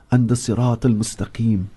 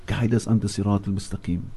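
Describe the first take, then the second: First: Said in the usual way. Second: A quiet, inward prayer to God; soft repeated plea. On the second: Real, not acted. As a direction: lower and much softer, fading. Closing plea repeated softer.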